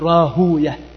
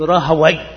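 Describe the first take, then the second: First: The name ends with the syllable 'yah'. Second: The name ends with the syllable 'wayh'. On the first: The ending avoids a word associated with Satan. The speaker calls it right. "إنما يقول راهوية" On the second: The ending sounds like a word associated with Satan. The speaker calls it wrong. "لا يقولون راهوي"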